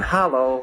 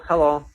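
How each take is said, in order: First: The first vowel has an 'a' sound. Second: The first vowel has a plain 'e' sound. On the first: Commenters use it to mock the speaker's accent. "people in the comments going hello with an A" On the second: This is how the speaker normally says it. "I have a Scottish accent. So I'll go hello"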